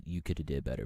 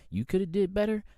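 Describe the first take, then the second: First: Said in the usual way. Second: "You coulda did better" said again higher and louder, stress on "better"; emphatic repeat. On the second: Real, not acted. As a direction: push the repeat harder, lean on "better". Repeats the line twice, second louder.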